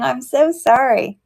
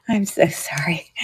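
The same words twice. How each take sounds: First: Said in the usual way. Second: Breathless laughing whisper, much softer; whispered apology. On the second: Real, not acted. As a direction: whisper it through a giggle, embarrassed.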